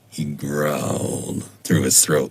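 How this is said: It is said with a growl.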